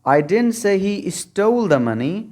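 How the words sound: The stress falls on the word stole. He took the money but did not steal it.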